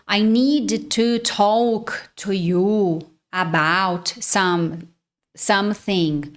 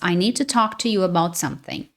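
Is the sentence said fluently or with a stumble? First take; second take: stumble; fluent. First: The last word breaks off and restarts. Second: The sentence flows smoothly without any break. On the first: The speaker calls it wrong. "mesmo que a fala não seja perfeita" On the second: The speaker calls it right. "Essa é a pronúncia correta ali das palavras"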